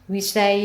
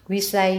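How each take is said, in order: No difference in how they are said.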